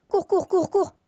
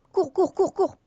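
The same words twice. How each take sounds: First: High urgent repeated run; panicked calls to run; being chased. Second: Urgent high shouts of run; panicked calls to run; being chased. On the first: Fleeing creeper again. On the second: Fleeing creepers in game. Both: Real, not acted.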